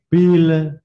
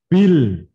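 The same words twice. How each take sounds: First: The final L trails off with an extra sound. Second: The final L ends cleanly against the palate. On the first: The speaker calls it wrong. "itu salah" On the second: The speaker calls it right. "lam itu dipadalke"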